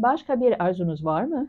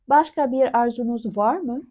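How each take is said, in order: First: It is said fast. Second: It is said slowly.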